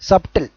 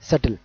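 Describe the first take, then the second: First: The b sound is pronounced in the middle. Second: The b sound is silent in the middle. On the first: The speaker calls it wrong. "సబ్టిల్ కాదు, అది correct pronunciation కాదు" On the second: The speaker calls it right. "So బి ఇక్కడ కూడా silent"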